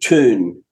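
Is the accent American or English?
American. It is said with an American accent.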